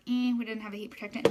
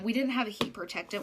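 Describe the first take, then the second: First: Mock disappointed. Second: Said in the usual way. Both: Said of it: "which I was kinda like".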